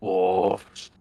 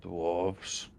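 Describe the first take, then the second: First: "Dwarves." whispered right into his face; menacing whisper. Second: Low, quiet, brooding repeat of "Dwarves"; grim quiet word. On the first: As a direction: lean in close and whisper "Dwarves." as a threat. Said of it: "puts his face very close to this guy". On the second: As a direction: say "Dwarves." quietly, brow furrowed, barely above a mumble. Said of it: "his brow furrows and he goes". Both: Acted.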